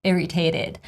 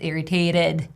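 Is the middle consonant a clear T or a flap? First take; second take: flap; flap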